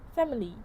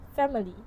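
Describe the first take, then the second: The two takes are said the same way.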